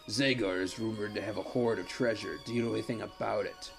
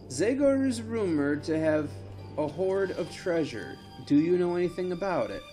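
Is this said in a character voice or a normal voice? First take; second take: character voice; normal voice. First: It is said in a put-on character voice. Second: It is said in a plain, normal voice. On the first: The speaker calls it right. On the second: The speaker calls it wrong.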